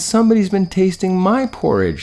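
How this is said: It is said in a high, squealing little voice. "squealed the Baby Bear"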